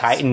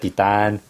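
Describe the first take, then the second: First: It is said with an anglicized, English accent. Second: It is said with a native Spanish accent.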